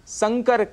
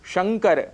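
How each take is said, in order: First: The word starts with an s sound. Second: The word starts with an sh sound. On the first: The speaker calls it wrong. "जिसके लिए हम संकर कह जाते हैं। इस स के परिवर्तन से" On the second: The speaker calls it right. "बहुत ही प्रचलित शब्द है शंकर"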